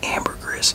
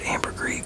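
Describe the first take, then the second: First: The word is pronounced in a local English style. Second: The word is pronounced in a French style. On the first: The speaker calls it wrong. "a lot of people over here say ambergris. It just doesn't sound appealing" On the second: The speaker calls it right. "I pronounce it like like it is in French"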